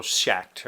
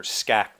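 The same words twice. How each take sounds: First: Schacht with an opening "sh", like "shakt"; sh pronunciation. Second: Schacht with a hard "sk" opening, like "skakt"; sk pronunciation. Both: Shown as a demonstration. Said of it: "I don't know how to say his name".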